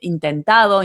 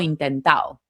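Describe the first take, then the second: First: The d sound near the end is pronounced. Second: The d sound near the end is dropped. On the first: "En lugar de eh, intentado" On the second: "se comen también las des en los participios"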